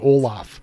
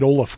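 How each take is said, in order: First: The second syllable has an open 'ah' vowel. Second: The second syllable has a short 'uh' vowel. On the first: The speaker calls it wrong. "not St. Olaf" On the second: The speaker calls it right. "I go with the O-L-U-H-F pronunciation"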